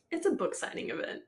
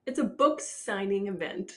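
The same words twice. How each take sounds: First: Said through a laugh; amused incredulous line. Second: Slow, with "book" stressed; slow emphatic repeat; deliberate stress. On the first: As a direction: laugh as you say it. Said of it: "Bitch, you just met her". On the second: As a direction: lean on "book" slowly. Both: Real, not acted.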